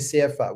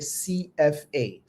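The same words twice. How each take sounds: First: The letters are said in a non-English way. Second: The letters are said in the English way. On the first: The speaker calls it wrong. "In English, we don't say C F A" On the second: The speaker calls it right. "We say C F A"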